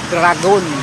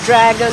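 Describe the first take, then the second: First: The word is said with Ilonggo pronunciation. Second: The word is said with English pronunciation. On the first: "to dragon" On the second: "a difference in pronunciation from dragon"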